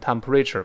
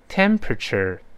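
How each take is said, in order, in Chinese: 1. 重音落在后面的音节上。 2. 重音落在第一个音节上。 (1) "不能乱读成temperature 不能这么读" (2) "跟老师大声读一遍"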